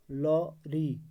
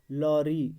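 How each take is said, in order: First: lorry in two beats, lo, pause, ree; split into syllables. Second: Said in the usual way. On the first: Shown as a demonstration. Teacher showing the word has two syllables, split into syllables. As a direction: break lorry with a clear gap before ree. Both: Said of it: "दो".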